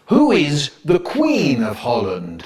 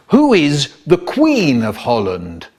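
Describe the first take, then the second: First: Slow, drawn-out street proclamation; public notice. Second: Slow, drawn-out official inquiry; inspector's question. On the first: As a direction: read it out slowly as a public notice. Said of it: "put notices all round the street saying". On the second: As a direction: put the question slowly, like an inspector. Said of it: "an inspector asked". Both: Acted.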